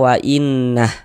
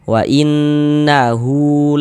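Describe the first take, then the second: First: The word ends short on h, no vowel. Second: The word ends with a long u vowel. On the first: The reader stops at this word. "wa innah jadinya nggak berlaku tanda panjangnya" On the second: The reader continues without stopping. "berlaku dipanjangkan dua harokat seperti itu"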